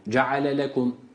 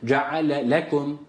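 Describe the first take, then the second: First: The second l runs on without any emphasis. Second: The second l gets a light separate emphasis. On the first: The two words sound like one word. The speaker calls it wrong. "Vurgu yapmazsak şöyle olacak" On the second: The two words are heard as separate words. The speaker calls it right. "İkinci lamı telaffuz ederken hafif vurgu yapıyoruz"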